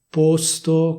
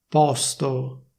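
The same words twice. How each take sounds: First: The o is pronounced closed. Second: The o is pronounced open. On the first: This is the official standard pronunciation. "posto con la O chiusa" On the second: This sounds trendier, like speech in Milan. "puoi dire posto con la O aperta"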